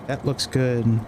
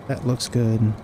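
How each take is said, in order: Both takes have the same delivery.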